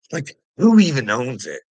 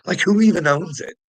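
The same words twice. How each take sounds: First: Loud, scornful question; imitating a loud, dismissive bully; mock narcissist. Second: Higher, loud mocking whine; hammed-up narcissist, higher and louder. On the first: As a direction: sneer it out at full volume. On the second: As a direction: parody the smug owner's question. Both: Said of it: "That's what a little narcissist would do".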